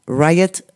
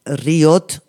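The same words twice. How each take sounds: First: Riot said the English way, "RAI-et"; pronunciación inglesa. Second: Riot read letter by letter as in Spanish, "ree-OT"; pronounced as written. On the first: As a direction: say Riot in English, first vowel like "eye". (Riot pronunciado en inglés, "ráiet") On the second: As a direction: spell out Riot by sound, with Spanish vowels. (Riot leído tal como se escribe, "ri-ot") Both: Shown as a demonstration. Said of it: "escrito, eh, en inglés".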